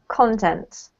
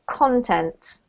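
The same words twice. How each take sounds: First: The stress is on the first syllable. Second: The stress is on the first syllable.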